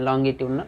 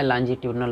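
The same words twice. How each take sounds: First: लॉन्गिट्यूडनल with a hard g, low; लॉन्गिट्यूडनल, hard g, pitched low; alternative pronunciation. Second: लॉन्जिट्यूडनल with a soft j sound; speaker's own pronunciation. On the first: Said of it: "कोई लोग लॉन्गिट्यूडनल wave भी पढ़ते हैं". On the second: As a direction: say लॉन्जिट्यूडनल with j as in "jam". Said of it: "मैं लॉन्जिट्यूडनल पढ़ता हूँ". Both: Shown as a demonstration.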